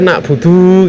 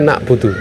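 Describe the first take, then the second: First: The final vowel is drawn out long. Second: The final vowel is kept short. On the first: The speaker calls it wrong. "kok dibaca nak budu gitu" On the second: The speaker calls it right. "harusnya kan nak budu"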